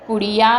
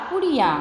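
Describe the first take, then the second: First: Said in the usual way. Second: पुड़िया with the final या nasalised as याँ; nasal plural ending. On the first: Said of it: "पुड़िया है तो पुड़िया की जगह या". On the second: Shown as a demonstration. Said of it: "चंद्र बिंदु लगा के या कर दिया".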